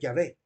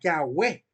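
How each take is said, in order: First: The middle consonant is a lip-teeth v sound. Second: The middle consonant is a rounded w sound. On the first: The speaker calls it right. "una V dental" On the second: The speaker calls it wrong. "el sonido de we que le dan a la W es un sonido inglés"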